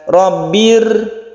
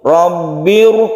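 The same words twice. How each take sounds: First: The r is pronounced light and thin. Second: The r is pronounced heavy and full. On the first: "Kalau tipis kan rabbir, itu tipis" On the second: "dibaca tebal atau tafkhim"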